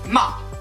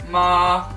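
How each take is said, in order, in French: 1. La syllabe est courte et rapide. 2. Le ton est long et tenu à plat. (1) "c'en est un rapide" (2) "qui est long et allongé"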